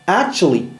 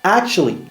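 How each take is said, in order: First: Every syllable is said fully and clearly. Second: It is said fast with syllables reduced.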